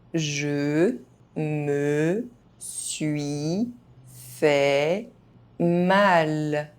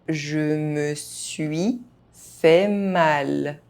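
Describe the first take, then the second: First: The phrase is spoken very slowly. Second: The phrase is spoken at normal speed. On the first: Each syllable can be heard clearly. "very slowly" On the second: This is the pace learners should use. "at a normal pace"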